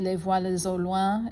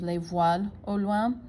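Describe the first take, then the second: First: The S of voiles links into au. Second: The S of voiles stays silent before au. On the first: The speaker calls it right. "required liaisons between um, like a silent S at the end of the word and the next one" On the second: The speaker calls it wrong. "instead of"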